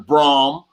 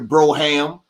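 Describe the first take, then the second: First: The word is said with one syllable. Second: The word is said with two syllables. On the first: The speaker calls it wrong. "not the Brom" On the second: The speaker calls it right. "We in here in the Broham"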